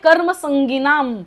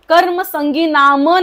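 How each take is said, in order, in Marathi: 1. 'nam' आधीच्या शब्दाला सहजपणे जोडला जातो. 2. 'nam' वेगळा केला जातो आणि स्वतंत्र शब्दासारखा त्यावर जोर दिला जातो. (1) "पण काय आहे, कर्म संगिनाम" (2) "कर्म संगी नाम नाहीये, नाम बोललात तर न वरती भार द्यावा लागेल"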